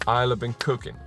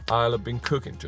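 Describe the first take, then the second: No difference in how they are said.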